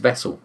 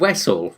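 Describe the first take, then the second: First: It is said with a plain ordinary pronunciation. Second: It is said with a put-on Russian-style pronunciation. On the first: This is the word the character intends. The speaker calls it right. "he means vessel" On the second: This is how the character mispronounces it. The speaker calls it wrong. "he's saying Wessel"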